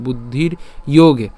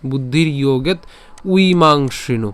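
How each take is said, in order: First: "ইয়োগে" ending on the open vowel, no t; proper joined form. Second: "ইয়োগেত" closed on a t, pause, then "উইমাংসিনু"; split for ease. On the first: Teacher correcting the split, "ইয়োগে" without a final t. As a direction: say "বুদ্ধির ইয়োগে" together, leaving the t for the next word. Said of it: "আমরা একসাথে উচ্চারণ করবো". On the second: Teacher showing an easier split, "ইয়োগেত" ending in t. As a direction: move the t onto "ইয়োগেত" and break before "উইমাংসিনু". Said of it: "তবে এভাবে উচ্চারণ না করে". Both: Shown as a demonstration.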